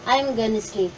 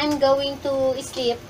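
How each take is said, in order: First: Going to is shortened into one word, gonna. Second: Going to is said fully as two words. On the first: "sasabihin mo na I'm gonna" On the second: "instead na I'm going to sleep"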